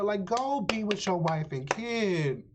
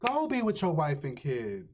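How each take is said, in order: First: "go" pitched higher, exasperated; incredulous. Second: Said in the usual way. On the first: Shown as a demonstration. Viewer scolding the character, higher exasperated disbelief. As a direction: toss it up, disbelieving.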